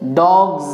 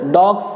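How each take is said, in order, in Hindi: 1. शब्द का अंत भनभनाती हुई z ध्वनि से होता है। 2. शब्द का अंत फुफकारती हुई s ध्वनि से होता है। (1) "सेम इसी पैटर्न पे" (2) "डॉग्स नहीं"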